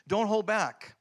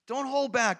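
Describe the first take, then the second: First: Said in the usual way. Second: "Don't hold back" repeated with more push, pitch up; emphatic repeat. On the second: Shown as a demonstration. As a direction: drive the repeat home with more force.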